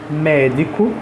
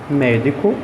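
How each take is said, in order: No difference in how they are said.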